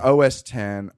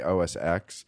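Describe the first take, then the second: First: The X is read as the number ten. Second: The X is read as the letter ex. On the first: The speaker calls it right. "It's OS 10" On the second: The speaker calls it wrong.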